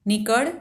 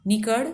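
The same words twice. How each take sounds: First: "નીકળ" shouted even louder, rising at the end. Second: A louder shout of "નીકળ" rising at the end. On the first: Rich wife chasing old woman out, louder "નીકળ" shout. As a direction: hit "નીકળ" harder, loudest. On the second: Rich wife driving old woman out, loud "નીકળ". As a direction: bark "નીકળ" at her, rising. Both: A narrator's reading. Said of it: "બૂમબરાડા પાડવા લાગ્યા".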